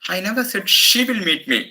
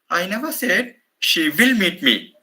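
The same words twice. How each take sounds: First: The word she carries the main stress. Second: The word will carries the main stress. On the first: Someone else may come instead of her. "Maybe somebody on her behalf will meet me" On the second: It is uncertain whether she will come. "I place the stress on the modal auxiliary"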